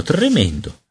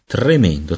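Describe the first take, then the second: First: Second "tremendo" much higher, falling; dismayed cry. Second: Said in the usual way. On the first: A narrator's reading. Peter realising he is a baby, high dismayed repeat. Horror at his baby body.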